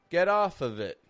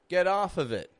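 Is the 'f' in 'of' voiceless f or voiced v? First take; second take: v; v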